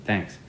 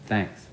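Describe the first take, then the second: First: The th has very little air flow. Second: The same.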